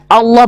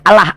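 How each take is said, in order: First: The L sound is thick and heavy. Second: The L sound is thin and light. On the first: The speaker calls it right. "Allah ditafkim bacanya ditebalkan" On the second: The speaker calls it wrong.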